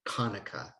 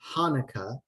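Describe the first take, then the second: First: The word begins with a 'ch' sound, as in 'chair'. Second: The word begins with a plain h sound. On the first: The speaker calls it wrong. "So don't say cha" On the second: The speaker calls it right. "even though it's incorrect, sounds a lot better"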